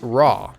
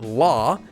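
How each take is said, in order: First: The first sound is a plain English R. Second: The first sound is a plain English L. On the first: "and it's definitely not raw" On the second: "Notice that it's not law"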